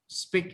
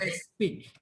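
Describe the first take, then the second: First: The word begins directly with the s sound. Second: An extra vowel sound comes before the s. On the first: The speaker calls it right. "We say s, speak" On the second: The speaker calls it wrong. "not as speak"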